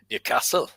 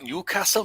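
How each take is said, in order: First: Newcastle said Geordie style, laughing and breathy; Geordie accent. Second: Said in the usual way. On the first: Shown as a demonstration. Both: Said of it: "That's how it sounds".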